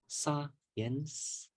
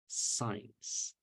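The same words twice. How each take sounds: First: The word is said with two syllables. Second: The word is said with one syllable. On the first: The speaker calls it wrong. "Instead of saying science" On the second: The speaker calls it right. "the correct pronunciation would be science, science. So there's only one"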